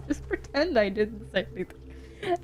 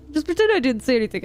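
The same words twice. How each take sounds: First: Quiet, breathy "Just pretend I didn't say anything"; embarrassed whisper. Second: Said in the usual way. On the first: Shown as a demonstration. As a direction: hush it out sheepishly.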